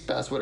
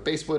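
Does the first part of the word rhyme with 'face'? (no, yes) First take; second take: no; yes. First: The first part does not rhyme with face. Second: The first part rhymes with face.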